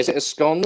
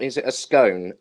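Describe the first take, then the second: First: SCONE said with a short o, like "gone"; "scone" with the short vowel of "on"; scone rhyming with gone. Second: SCONE said with a long o, like "bone"; "scone" with the long vowel of "own"; scone rhyming with bone. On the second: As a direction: say scone to rhyme with stone. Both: Shown as a demonstration. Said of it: "Is it a scone or is it a scone".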